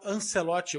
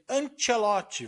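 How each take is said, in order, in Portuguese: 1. O nome é pronunciado do jeito português. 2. O nome é pronunciado do jeito italiano. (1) "também chamando Carlo Ancelotti" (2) "O cara é italiano, pelo amor de Deus, é Ancelotti"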